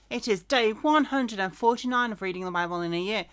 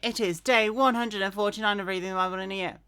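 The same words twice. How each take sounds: First: It is said more slowly. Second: It is said quite fast.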